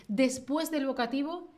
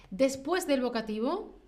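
The two takes are said the same way.

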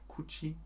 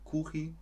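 First: "Kuchi" softened to /kui/, very quiet; quiet second guess at "Kuchi"; alternative pronunciation. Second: "Kuchi" with a ch sound, /kuxi/; softly trying "Kuchi" with ch; pronunciation try. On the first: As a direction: try "Kuchi" without the ch, barely voiced. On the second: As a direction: test "Kuchi" as ku-chi with a throaty ch. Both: Shown as a demonstration. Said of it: "Sagt man Kuchi oder Kuchi?".

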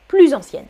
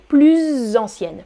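First: "plus ancienne" run together as pluzancienne; teacher models "plus ancienne" smoothly joined, no stretching; natural Z liaison. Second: "plus ancienne" as plu-zzz-ancienne, Z held; teacher exaggerates the Z joining "plus ancienne"; drawn-out Z liaison. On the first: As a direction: link "plus" to "ancienne" with a short Z. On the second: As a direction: stretch the buzzing link from "plus" to "ancienne". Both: Shown as a demonstration. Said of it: "je fais la liaison".

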